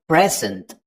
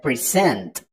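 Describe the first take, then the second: First: "present" as the noun, PRES-ent; first-syllable stress. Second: "present" as the verb, pre-SENT; second-syllable stress. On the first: Teacher showing the noun for a gift, "present" stressed PRES-ent. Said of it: "are stressed on the first syllable". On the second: Teacher showing the verb to give, "present" stressed pre-SENT. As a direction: put the weight on the end of "present", pre-SENT. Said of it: "on the second syllable". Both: Shown as a demonstration.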